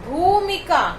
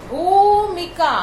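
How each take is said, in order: No difference in how they are said.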